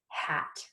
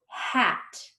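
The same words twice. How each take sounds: First: The word is said quickly as one unit. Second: The word is stretched out slowly, sound by sound. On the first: "Let's say it fast like a word" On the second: "Let's blend it slowly"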